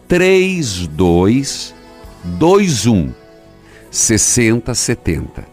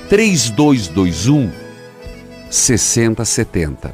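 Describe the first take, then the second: First: It is said slowly. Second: It is said at normal speed.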